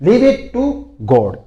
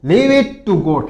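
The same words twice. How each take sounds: First: Slow, higher and loud; slow demo again; slow model phrase. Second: Very slow and loud; word by word; slow teacher demo; slow model phrase. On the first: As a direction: repeat it slowly for the class. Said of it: "इसको कैसे बोलते देखो". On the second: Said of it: "फिर देखो". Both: Shown as a demonstration.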